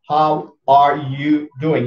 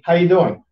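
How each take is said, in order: First: Every word is said in full. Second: The phrase is shortened and run together. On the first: "you don't have to say" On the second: "You say"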